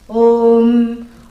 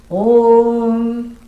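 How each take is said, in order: No difference in how they are said.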